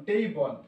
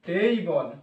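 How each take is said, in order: Both takes have the same delivery.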